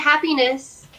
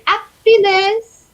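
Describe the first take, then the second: First: It is said in a plain English accent. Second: It is said in a French accent.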